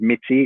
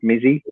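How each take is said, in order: First: The middle consonant sounds like 'ts'. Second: The middle consonant sounds like 'z'. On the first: The speaker calls it right. "it is Mitzi, isn't it?" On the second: The speaker calls it wrong. "Not Mizzy"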